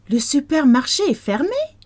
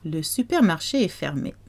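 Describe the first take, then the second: First: The voice rises at the end. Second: The voice falls at the end. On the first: It asks whether the supermarket is closed. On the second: It states that the supermarket is closed.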